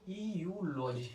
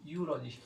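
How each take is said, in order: First: ईयूलॉजी drawn out slowly, starting with an ee vowel; teacher shows the mistake, stretching ईयूलॉजी; wrong pronunciation demo. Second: यूलॉजी said with a yu start, like a j sound; plain correct यूलॉजी, yu not ee; correct pronunciation. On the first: Teacher mimics students' wrong reading, slow. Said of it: "अब कई लोग इसको पढ़ेंगे यू". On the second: Teacher gives the right reading to the class. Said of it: "pronunciation होता है वो होता है यूलॉजी". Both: Shown as a demonstration.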